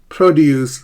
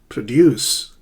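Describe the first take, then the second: First: The stress is on the first syllable. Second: The stress is on the second syllable. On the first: It names fruit and vegetables. "So produce is a noun" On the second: It means to make or create something. "It's a verb"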